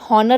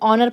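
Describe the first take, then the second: First: The word begins with an h sound. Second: The word begins directly with a vowel. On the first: The speaker calls it wrong. "इसको आप हॉनर नहीं पढ़ते" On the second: The speaker calls it right. "ऑनर पढ़ते हो"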